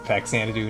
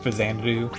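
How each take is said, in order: First: The X is said as a hard ks sound. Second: The X is said as a soft sound. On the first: "the hard X in Faxanadu" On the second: "not Fazanadu"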